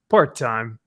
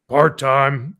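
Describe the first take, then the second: First: It is said with a lively, shrugging expression. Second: It is said in a flat, lifeless tone. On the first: The speaker calls it right. "it's supposed to be like he's going, eh" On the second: The speaker calls it wrong. "It's so flat"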